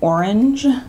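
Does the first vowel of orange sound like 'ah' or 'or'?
or. The first vowel sounds like 'or'. "instead of"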